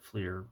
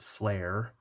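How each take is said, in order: First: The vowel sounds like the one in 'ear'. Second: The vowel sounds like the one in 'air'. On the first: "I always called it Fleer" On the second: "who pronounce it Flare"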